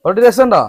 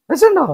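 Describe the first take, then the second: First: Loud, higher call of രസമുണ്ടോ with a falling end; loud question. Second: രസമുണ്ടോ repeated very high and loud, sing-song. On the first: Asking the children playfully. (രസമുണ്ടോ എന്ന് ഉറക്കെ ചോദിക്കുന്നു) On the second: Repeated to the children, much higher. (രസമുണ്ടോ വളരെ ഉയർന്ന സ്വരത്തിൽ കൊഞ്ചലോടെ) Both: Real, not acted.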